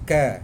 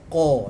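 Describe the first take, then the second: First: The consonant is thin and forward in the mouth. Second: The consonant is thick and deep in the throat. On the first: The speaker calls it wrong. "jangan baca ka" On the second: The speaker calls it right. "tebalkan qa"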